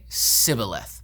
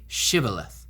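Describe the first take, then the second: First: The word begins with an 's' sound. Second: The word begins with a 'sh' sound. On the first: The speaker belongs to the outsider group. The speaker calls it wrong. "They didn't pronounce the sh properly" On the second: The speaker belongs to the local group. The speaker calls it right. "say Shibboleth"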